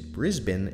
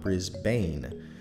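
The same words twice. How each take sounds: First: The second syllable has a short, reduced vowel. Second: The second syllable has a full 'bane' vowel. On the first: The speaker calls it right. "it is Brisbane" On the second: The speaker calls it wrong. "and not Brisbane"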